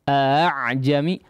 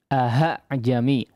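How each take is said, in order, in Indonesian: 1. Hamzah kedua menjadi lunak, di antara hentian dan vokal. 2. Hamzah kedua menjadi h yang jelas. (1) "hamzah yang kedua ini dibaca secara samar saja" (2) "mengubah hamzah yang kedua menjadi huruf ha"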